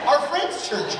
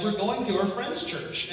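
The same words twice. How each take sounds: First: Higher and louder, insisting; exasperated repeat. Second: Said in the usual way. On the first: Retold or imitated. She answers nosy askers a second time, exasperated. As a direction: say it again, fed up with the question. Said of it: "Yeah, but what church are you going to?". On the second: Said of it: "We're like".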